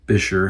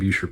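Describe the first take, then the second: First: The first syllable sounds like 'bih'. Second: The first syllable sounds like 'boo'. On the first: The speaker calls it right. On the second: The speaker calls it wrong.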